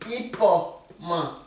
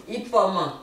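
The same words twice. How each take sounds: First: "Ipoman" drawn out slowly, each syllable clear; slow teacher model of "Ipoman"; slow careful. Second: Said in the usual way. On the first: Shown as a demonstration. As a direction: stretch out "Ipoman" so learners hear every sound. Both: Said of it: "de la sonorité et de la phonétique".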